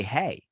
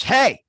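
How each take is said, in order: First: Said in the usual way. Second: Loud, higher, aggressive hey; sharp confrontational hey. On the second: Shown as a demonstration. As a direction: bark out hey like a challenge. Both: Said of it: "aggressive tone to your voice".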